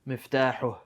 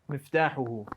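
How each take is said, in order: First: The word stops on the final h sound. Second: The word ends with a full vowel after h. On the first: "if you stop on it and you say with a sukun" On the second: "When I say this"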